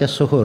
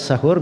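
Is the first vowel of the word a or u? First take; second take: u; a. First: The first vowel is a rounded u. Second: The first vowel is an open a. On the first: It means the act of eating the pre-dawn meal. "Kalau as-suhur artinya perbuatannya makan sahur" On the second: It means the pre-dawn meal itself. "kalau di fathah as-sahur berarti makan sahurnya"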